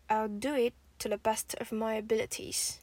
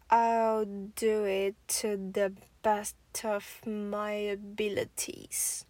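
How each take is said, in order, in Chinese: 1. 这句话是正常语速。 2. 这句话是慢速。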